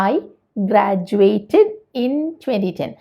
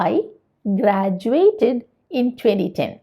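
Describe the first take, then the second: Both takes have the same delivery.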